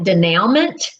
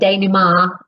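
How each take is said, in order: First: It is pronounced as spelled, English-style. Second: It is pronounced the French way. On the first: The speaker calls it wrong. "it looks like denouement" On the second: The speaker calls it right. "because it's a French word. ... you can say denouement and sound very uh, educated"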